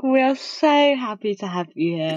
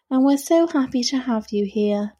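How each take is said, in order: First: Mock sarcastic. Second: Sarcastic. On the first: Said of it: "You're like". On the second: Real, not acted. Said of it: "could you say it sound any more sarcastic".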